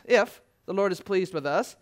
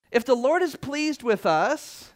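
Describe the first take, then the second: First: Said in the usual way. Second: "If the Lord is pleased with us" said slowly and higher with a rise on "is"; slow emphatic. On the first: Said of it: "repeated line". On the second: Shown as a demonstration. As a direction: lean on "is", drawn out and lifted. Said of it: "repeated with emphasis".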